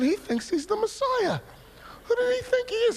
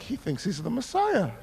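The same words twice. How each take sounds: First: High, mocking disbelief; incredulous thought. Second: Amused thought. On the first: Jealous twin scoffing at his preaching brother, incredulous. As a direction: scoff at your brother's nerve. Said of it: "I'm just sitting there thinking". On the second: Retold or imitated. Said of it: "And I'm like".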